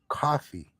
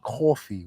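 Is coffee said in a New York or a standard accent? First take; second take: standard; New York. First: Coffee is said without a New York accent. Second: Coffee is said with a New York accent. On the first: The speaker calls it right. "You're supposed to say coffee" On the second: The speaker calls it wrong. "They say we say coffee. We not supposed to say that"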